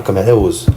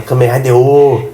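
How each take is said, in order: First: Ozo quick, with a Z; pronúncia preferida. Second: O stretched out long; pronúncia rejeitada. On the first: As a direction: say Ozo fast, "Ô-zo". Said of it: "vou falar Kamen Rider Ozo". (Ozo rápido, com som de Z) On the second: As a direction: say O as one long, drawn-out vowel. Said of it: "eu não vou falar". (O bem esticado, "ôôô") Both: Shown as a demonstration.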